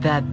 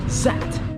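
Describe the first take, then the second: First: The word starts with a tongue-out th sound. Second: The word starts with a buzzing z sound. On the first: "slowly sticking your tongue out" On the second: "like a French villain"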